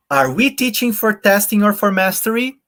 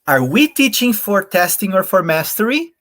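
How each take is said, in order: First: "we" बहुत ऊँचे सुर में उठता; stress on WE, higher. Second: "we" पर ऊँचा और ज़ोरदार उठान; stress on WE. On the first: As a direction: let the word we soar up high. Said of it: "if I read it this way". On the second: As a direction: hit the word we higher, rising. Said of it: "I wanted to read it in this way". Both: Shown as a demonstration.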